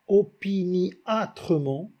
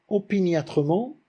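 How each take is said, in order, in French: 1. Le i et le â forment deux syllabes distinctes. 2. Le i et le â se fondent en une seule syllabe. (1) "il a choisi de dire opiniâtrement. C'est pour provoquer ce déplaisir. Cette diérèse désagréable" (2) "Au lieu de dire"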